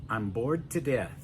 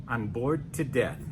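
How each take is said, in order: The two takes are said the same way.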